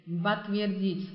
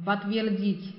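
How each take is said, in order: First: Slow Подтвердить with the stress on the last syllable dit; teacher modelling the stress of Подтвердить. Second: Said in the usual way. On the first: Shown as a demonstration. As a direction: say Подтвердить slowly, leaning on dit. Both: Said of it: "重音在这个dit".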